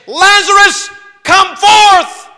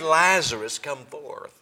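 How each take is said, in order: First: It is said loudly, as a cry. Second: It is said quietly, like normal talk.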